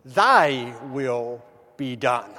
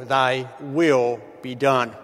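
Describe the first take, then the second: First: Thy stressed, slow and drawn out; Thy said with weight, will be done falling. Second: Will stressed, slow and resigned; slow resigned Thy will with will stressed. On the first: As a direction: lean on Thy, take it slowly. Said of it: "accent the first word". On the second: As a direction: weigh down the word will, let it fall. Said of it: "they accent the second word, will". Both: Shown as a demonstration.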